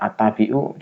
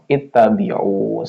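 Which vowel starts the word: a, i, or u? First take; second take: a; i. First: The word begins with an a vowel. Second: The word begins with an i vowel. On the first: The speaker calls it wrong. "ngarang atau kira-kira" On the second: The speaker calls it right. "kasroh bacanya"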